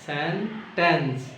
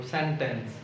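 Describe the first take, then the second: First: "সেন্টেন্স" slowly split in two, সেন, টেন্স; teacher's slow two-part "সেন্টেন্স"; syllable by syllable. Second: Said in the usual way. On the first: Shown as a demonstration. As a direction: draw out both syllables of "সেন্টেন্স" with a break between. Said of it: "যদি আমরা সিলেবলে ভাগ করি".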